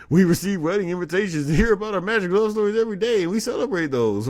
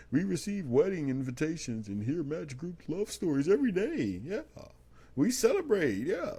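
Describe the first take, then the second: First: Loud, high, rapid-fire corporate parody; mock spokesperson. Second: High, singsong corporate gushing; hammed-up spokesperson, pitch swooping way up; mock spokesperson. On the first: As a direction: race shrilly through the canned company line. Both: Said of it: "this is how they sound in my head".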